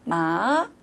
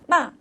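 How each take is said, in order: First: The pitch rises from middle to high. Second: The pitch falls sharply from high to low. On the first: "중간음이 미에서 솔로 올라가는 거죠" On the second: "높은 솔에서 도로 떨어지는 거죠"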